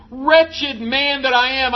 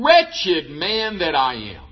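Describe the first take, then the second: First: Higher, slow anguished plea; mock despair raised up high; anguished cry. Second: Slow, low, heavy lament. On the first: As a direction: lift it into a pained slow cry. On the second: Retold or imitated. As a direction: sink the words down in slow despair. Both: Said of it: "Paul just vents out".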